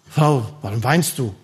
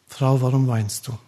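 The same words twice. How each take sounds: First: The question is asked in a reproachful tone. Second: The question is asked in a gentle tone. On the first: The asker blames the listener for crying. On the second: The asker is concerned for the listener.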